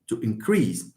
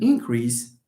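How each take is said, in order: First: "increase" lower, stressed on the second syllable. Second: "increase" said slowly, first syllable stressed. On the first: Teacher giving the verb example, second-syllable stress on "increase". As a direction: drop lower and weight the end of "increase". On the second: Teacher giving the noun example, slow first-syllable stress on "increase". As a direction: slowly lean on the start of "increase". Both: Shown as a demonstration. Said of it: "the same thing goes for".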